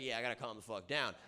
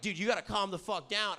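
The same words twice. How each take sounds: First: Low, soft, quick concession; acted meek agreement. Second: Raised-pitch mock urging; imitated friends' telling-off. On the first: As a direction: give in quietly and quickly. Voices his own grudging agreement. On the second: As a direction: act out a buddy urging restraint. Voices friends telling him off.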